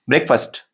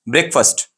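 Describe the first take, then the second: No difference in how they are said.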